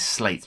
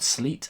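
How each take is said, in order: First: The vowel sounds like the one in 'late'. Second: The vowel sounds like the one in 'feet'. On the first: The speaker calls it right. "I'm given to believe that the pronunciation is slate" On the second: The speaker calls it wrong. "not sleet, as it's phonetically spelt"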